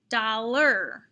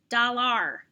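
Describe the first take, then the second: First: The second syllable sounds like 'er'. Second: The second syllable sounds like 'ar'. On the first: The speaker calls it right. "try it with the A R er" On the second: The speaker calls it wrong. "you thought A R sounded like R, you'd be saying dollar"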